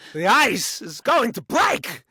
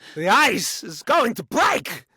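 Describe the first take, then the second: First: Strong stress falls on break. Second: The same.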